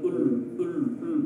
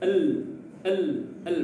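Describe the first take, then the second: First: The syllable is said with a rounded u-like vowel. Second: The syllable is said with unrounded, neutral lips. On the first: The speaker calls it wrong. "bukan ul ul ul tidak boleh ya" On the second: The speaker calls it right.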